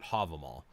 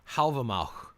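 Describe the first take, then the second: First: The name is said in an American English way. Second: The name is said in an Old Norse way. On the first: The speaker calls it wrong. "That's definitely an American English way of pronouncing it" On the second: The speaker calls it right. "supposedly it's pronounced Halvamauch"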